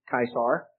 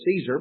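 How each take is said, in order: First: The word begins with a hard K sound. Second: The word begins with a soft S sound. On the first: "the Latin pronunciation of Caesar is very similar to that. It's more like" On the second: "we say Caesar"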